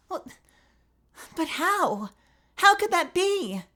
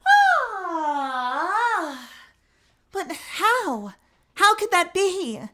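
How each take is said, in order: First: High but too hard; lacking softness; not soft enough. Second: Put-on softer high girl's voice; the softer retake of the witness's dismay. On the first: Acted. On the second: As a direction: let it come out gentle and dazed. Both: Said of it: "where's my softness?".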